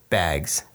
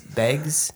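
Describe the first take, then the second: First: Bags is said without a Minnesota accent. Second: Bags is said with a Minnesota accent.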